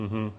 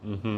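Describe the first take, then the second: No difference in how they are said.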